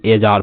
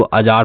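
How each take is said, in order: First: एजार opening on an "ay" vowel; mispronunciation demo. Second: अजार opening on a short "uh"; correct pronunciation. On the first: Teacher rejects a misreading of ajar, एजार with an "ay" start. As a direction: say एजार as "ay-jaar". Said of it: "ना कि एजार पढ़ते हैं". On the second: Teacher models ajar for learners, अजार with an "uh" start. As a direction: say अजार as "uh-jaar". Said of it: "इसको अजार पढ़ते हैं". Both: Shown as a demonstration.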